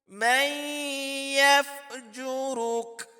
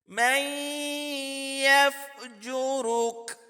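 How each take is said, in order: No difference in how they are said.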